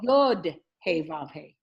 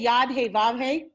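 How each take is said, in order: First: The first word has an 'oh' vowel. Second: The first word has an 'ah' vowel. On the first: The first word names the letter. The speaker calls it right. "It's Yod Hey Vav Hey" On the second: The first word would mean hand. The speaker calls it wrong. "you're saying it completely wrong"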